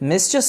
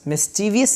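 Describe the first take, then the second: First: It is said with three syllables. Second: It is said with four syllables. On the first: The speaker calls it right. "बल्कि मिस्चुअस बोलेंगे इसे" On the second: The speaker calls it wrong. "मिस्चीवियस नहीं"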